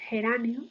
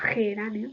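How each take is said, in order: First: The first consonant is a soft breathy h. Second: The first consonant is a tense throaty rasp. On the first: "se produce la aspiración de J" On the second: "con esa pronunciación tensa"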